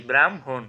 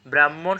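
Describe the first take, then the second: First: ব্রাহ্মণ as "bram-hon"; correct pronunciation. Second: Said in the usual way. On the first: Shown as a demonstration. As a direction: put m before h in ব্রাহ্মণ. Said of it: "সঠিক উচ্চারণ কি?". (ব্রাহ্মণকে "ব্রাম্-হোন" উচ্চারণ)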